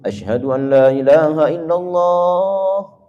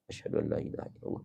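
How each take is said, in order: First: The phrase is said loudly and strongly. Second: The phrase is said softly and quietly.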